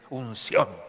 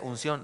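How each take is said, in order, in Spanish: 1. La palabra se dice con un tono exagerado y alargado. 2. La palabra se dice de forma sencilla, sin énfasis especial. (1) "es unción" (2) "Porque usted dice unción, no funciona"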